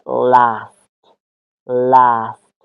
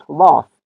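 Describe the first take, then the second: First: "لاست" mit kurzem flachem A; American "لاست", short A; American accent. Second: "لاست" mit langem britischem A, "laast"; British "لاست", long open A; British accent. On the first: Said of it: "ساوند ا". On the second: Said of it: "در لهجهٔ بریتیش". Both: Shown as a demonstration.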